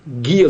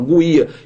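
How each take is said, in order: First: The u after the g is silent. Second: The u after the g is pronounced aloud. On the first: The speaker calls it right. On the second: The speaker calls it wrong.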